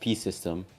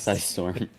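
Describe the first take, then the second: First: The second syllable sounds like 'stem'. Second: The second syllable sounds like 'storm'. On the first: The speaker calls it wrong. "I thought it was pronounced P System" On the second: The speaker calls it right. "not Psystorm"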